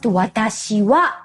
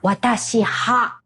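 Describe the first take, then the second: First: The final particle is pronounced with a w sound. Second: The final particle is pronounced with an h sound. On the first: The speaker calls it right. "must be pronounced watashi wa" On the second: The speaker calls it wrong. "not watashi ha"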